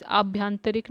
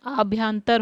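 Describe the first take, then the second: First: आभ्यंतरिक said with ik on the end, aabh-yan-ta-rik; the wrong form आभ्यंतरिक, the extra ik clearly sounded. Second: आभ्यंतर said slowly, ending on tar; the right form आभ्यंतर, carefully spaced; आभ्यंतर with no ik after tar; correct form. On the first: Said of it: "आभ्यंतरिक नहीं होता है". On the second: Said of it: "आभ्यंतर होता है". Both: Shown as a demonstration.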